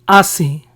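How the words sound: It is said with a Spanish pronunciation. "We pronounced these brands as"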